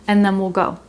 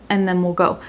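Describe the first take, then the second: Both takes have the same delivery.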